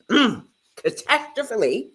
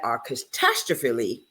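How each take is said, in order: First: "catastrophically" restarted clearly after a throat clear, each syllable placed; "catastrophically" said deliberately and fully, pitch lifting at the end; careful correction. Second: "catastrophically" garbled and dropped, slurred as "arcatastophically"; "catastrophically" mumbled with a false start and falling away; stumbled word. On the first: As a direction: redo "catastrophically" carefully, rising, kʰə-TÆS-trə-fə-li. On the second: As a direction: trip over "catastrophically", half swallowed and lower. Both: Shown as a demonstration.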